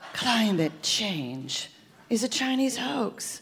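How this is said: It is said seductively, like a spy.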